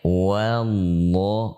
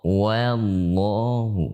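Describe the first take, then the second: First: The opening wa sounds light and thin. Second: The opening wa sounds light and thin.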